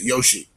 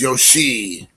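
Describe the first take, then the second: First: The final vowel is short. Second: The final vowel is drawn out long. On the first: It is the first name spelled with one i. "like first name will be Y O S H I" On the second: It is the last name spelled with two i's. "you kind of trail off a little bit. It's a little bit more of a long, elongated pronunciation"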